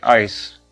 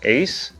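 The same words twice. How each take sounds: First: The vowel sounds like 'eye'. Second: The vowel sounds like 'ay'. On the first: The speaker calls it right. "lebih kayak A I" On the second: The speaker calls it wrong. "bukan A"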